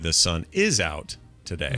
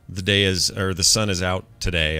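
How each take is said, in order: First: The stress falls on an unexpected word. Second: The stress falls on the usual words. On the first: The speaker calls it wrong. "I put emphasis on different syllables or parts of words that I'm not supposed to" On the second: The speaker calls it right. "instead of saying"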